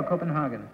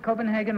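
First: Copenhagen with a broad "hah" in the third syllable; Copenhagen, "hah" rather than "hay"; alternative pronunciation of Copenhagen. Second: Copenhagen with a long "hay" in the third syllable; English Copenhagen, "hay" rather than "hah"; American-style Copenhagen. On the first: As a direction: say Copenhagen as koh-pen-HAH-gen. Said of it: "or Copenhagen". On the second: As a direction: say Copenhagen as koh-pen-HAY-gen. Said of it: "do you pronounce it Copenhagen like number three". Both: Shown as a demonstration.

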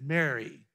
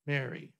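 First: Said in the usual way. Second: "Mary" said soft, the way a close friend says it; quiet, loving "Mary"; tender, familiar "Mary". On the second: Shown as a demonstration. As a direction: say "Mary" gently, like you always have. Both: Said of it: "The way he's always said it".

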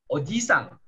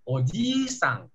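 First: "oji-sang" with a quick i; short i. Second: "oji-sang" slowly, i drawn out; long i. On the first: Teacher contrasts two words, short i in "oji-sang". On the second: Teacher contrasts two words, long i in "oji-sang". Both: Shown as a demonstration. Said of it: "itu beda I-nya".

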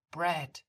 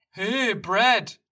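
First: Calm, firm Brad with a falling tune; calm, composed Brad. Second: Loud, high Hey, Brad called from afar; loud call of Hey, Brad from a buddy. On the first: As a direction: say Brad calmly, setting a limit. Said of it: "sagt Maya mit ruhiger Stimme". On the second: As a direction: shout Hey, Brad across the park. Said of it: "Plötzlich ruft jemand". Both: Acted.

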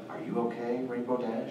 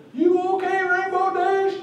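First: Said in the usual way. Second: Very high, squeaky pony voice; original Derpy voice. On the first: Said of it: "now it's". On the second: Retold or imitated. Panelist contrasting the original line, high and squeaky. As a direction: pitch way up into a squeaky cartoon voice. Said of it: "So instead of".

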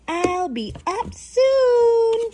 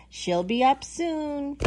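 First: High, slow, drawn-out call; mama calling back. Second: Said in the usual way. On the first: Acted. Mama llama answers her baby, calling back. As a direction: sing it back up the stairs. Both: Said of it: "Mama says".

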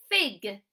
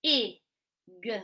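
First: FIG blended into one loud word. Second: I and g as separate phonics sounds; short I, pause, then a lone g; sounding out. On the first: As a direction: join the sounds firmly into FIG. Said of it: "blend it back together". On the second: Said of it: "we sound out the word". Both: Shown as a demonstration.

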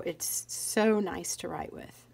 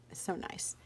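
First: Said in the usual way. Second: Soft breathless whisper of delight; hushed, admiring whisper; whispered aside. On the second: Real, not acted. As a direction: whisper it to yourself, savoring. Savoring the pen, whispered aside.

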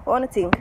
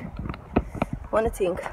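First: Said in the usual way. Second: Slow unvoiced whisper of "I wanna think". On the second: Real, not acted. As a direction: breathe "I wanna think" out slowly, voiceless.

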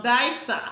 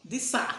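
First: Disa said as DYE-sah; first syllable of Disa rhymes with "eye"; DYE-sah pronunciation. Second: Disa said as DEE-sah; first syllable of Disa rhymes with "see"; DEE-sah pronunciation. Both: Shown as a demonstration. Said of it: "Some people call it Disa".

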